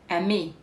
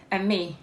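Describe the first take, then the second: No difference in how they are said.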